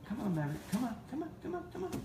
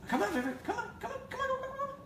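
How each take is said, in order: First: It is said quietly with low energy. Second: It is said louder with more energy.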